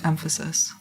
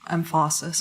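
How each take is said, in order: First: The stress falls on the expected syllable. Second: The stress falls on an unexpected syllable. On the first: The speaker calls it right. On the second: The speaker calls it wrong.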